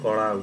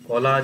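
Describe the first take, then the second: First: The middle consonant is an r-like flapped sound. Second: The middle consonant is a plain l sound. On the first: "এটা উড়িয়াতে কড়া উচ্চারণ হবে" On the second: "যে কলা যে শব্দটা"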